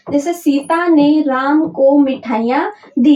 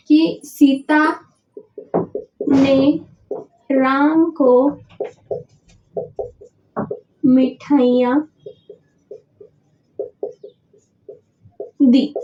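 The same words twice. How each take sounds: First: Said in the usual way. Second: Slow, word by word with long pauses; unhurried teacher spelling out an example sentence; slow dictation. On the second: Shown as a demonstration. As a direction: dictate each word slowly for the board to copy.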